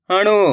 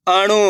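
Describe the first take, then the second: First: Each syllable sounded separately, pauses between; letter by letter. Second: Said in the usual way. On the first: Shown as a demonstration. Teacher sounds out a word for beginners, letter by letter. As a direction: break the word into its letters, slowly. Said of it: "एक ही अक्षर का उच्चारण". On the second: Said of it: "तो मिलके बन जाएगा".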